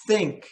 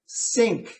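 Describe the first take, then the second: First: "think" opening on th with the tongue between the teeth. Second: "Sink" opening on a sharp s. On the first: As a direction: contrast "think" with sink. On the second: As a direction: contrast "Sink" with think. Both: Shown as a demonstration. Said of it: "hear the difference very clearly".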